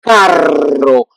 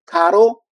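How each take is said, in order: First: Carro slower, with a rolled double R; trilled carro. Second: Caro with a single tap, higher; tapped caro. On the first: Teacher contrasting carro with Caro. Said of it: "two double R". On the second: Teacher contrasting Caro with carro. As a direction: flick the R once in Caro. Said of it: "that pronunciation". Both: Shown as a demonstration.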